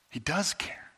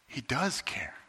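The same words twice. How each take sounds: First: Soft He does care, rising on does; quiet reassurance. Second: Quiet, gentle he does care with does leaned on; soft reassurance. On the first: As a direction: repeat it gently with warmth. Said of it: "repeated reassurance". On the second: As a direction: settle them softly, stress does. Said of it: "emphatic reassurance, repeated". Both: Acted.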